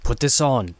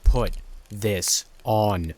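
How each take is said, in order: First: Said in the usual way. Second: Slow, firm command, each word set apart; insistent, deliberately spaced-out demand; more aggressive. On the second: A narrator's reading. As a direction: order it word by word, drawn out. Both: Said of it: "he repeated in a more aggressive tone".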